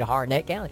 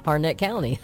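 First: Harnett County with NETT stressed; stress on second syllable. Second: Harnett County with HAR stressed; husband's correct pronunciation. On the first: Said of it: "I put the stress on the second syllable". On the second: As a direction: model HAR-nit County for someone to copy. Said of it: "That's not how you say Harnett". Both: Retold or imitated.

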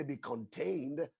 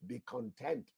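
First: Contained said with a long ay sound, con-TAYND; the word contained set against content; wrong word be contained. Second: Content said with a short e, con-TENT, softer; the word content, gently corrected; right word be content. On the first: Preacher warns the church against contained, saying contained. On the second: Preacher gives the church the right word, saying content. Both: Shown as a demonstration. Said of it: "I didn't say be contained".

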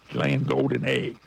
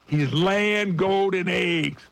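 First: Said in the usual way. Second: "laying" stressed, the line drawn out slowly; "laying" hit with weight, every word spaced out; slow emphatic. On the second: Real, not acted. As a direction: lean hard on "laying" and take it slow. Repeats point for emphasis.

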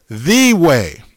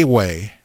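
First: Slow right down and punch "the" as "thee"; stress on THE. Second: "a" set apart and said as a long "ay"; stress on A. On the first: Preacher correcting the reading of scripture, stressing "the" as "thee". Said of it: "Didn't say a way". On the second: Preacher rejecting a misreading, stressing "a" as "ay". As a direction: say "a" as its letter name, as the wrong reading. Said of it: "It said the way". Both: Shown as a demonstration.

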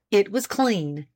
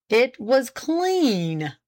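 First: Said in the usual way. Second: Very slow, drawn-out echo; deliberate lawyerly repetition; pointed repeat. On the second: A narrator's reading. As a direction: repeat it with heavy significance, stretching the words. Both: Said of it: "repeated Page".

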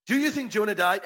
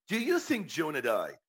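First: "Do you think Jonah died" pitched high throughout; emphatic repeated question. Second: Said in the usual way. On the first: Real, not acted. Host challenging viewers for their thoughts, emphatic question.

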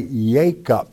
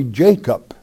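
First: "Jacob" with a Y sound for the J; Hebrew pronunciation. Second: Said in the usual way. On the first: Shown as a demonstration. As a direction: say "Jacob" slowly as YAY-kup. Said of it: "a class that understood Hebrew only". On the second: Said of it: "I am a teacher in English".

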